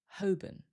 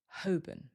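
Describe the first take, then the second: First: The L is silent, second syllable weak. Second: The L is silent, second syllable weak.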